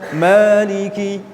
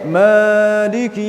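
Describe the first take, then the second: First: The long vowel is held for two beats. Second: The long vowel is held for three and a half beats. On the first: The speaker calls it right. "Yang benar Maliki" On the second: The speaker calls it wrong. "itu sudah tiga setengah harokat"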